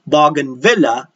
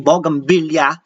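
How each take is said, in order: First: It is said without a Filipino accent. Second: It is said with a Filipino accent. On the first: The speaker calls it right. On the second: The speaker calls it wrong.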